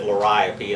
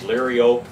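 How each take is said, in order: First: The word is given an everyday pronunciation. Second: The word is given its Latin pronunciation. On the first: This is how most people say the name. "most said liriope, and that's what I always say" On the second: This is the botanical form of the name. "botanically the Latin pronunciation is liriope"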